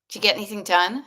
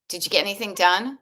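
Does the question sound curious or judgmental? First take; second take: judgmental; judgmental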